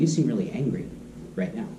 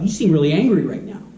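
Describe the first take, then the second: First: It is said gently and with empathy. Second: It is said through clenched teeth, confrontationally.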